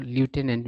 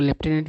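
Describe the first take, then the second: First: लेफ्टिनेंट said "loo-TEN-ent", with no f sound; American pronunciation. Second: लेफ्टिनेंट said "lef-TEN-ent", with an f sound; British pronunciation. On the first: Teacher showing students both accepted readings, लेफ्टिनेंट in American "loo-tenant" form. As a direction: say लेफ्टिनेंट the American way, starting "lyoo". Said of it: "एक American उच्चारण होता है". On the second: Teacher showing students both accepted readings, लेफ्टिनेंट in British "lef-tenant" form. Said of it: "एक British उच्चारण होता है". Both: Shown as a demonstration.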